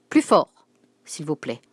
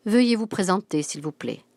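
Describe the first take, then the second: First: Cri sec, plus haut et plus fort; elle exige qu'on parle plus fort; s'écrie. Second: Ferme et sonore, puis retombe; voix forte. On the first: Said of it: "s'écria la directrice". (s'écrier avec autorité) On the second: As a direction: une vieille dame qui exige, fort. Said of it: "dit-elle d'une voix forte". (d'une voix forte et autoritaire) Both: Acted.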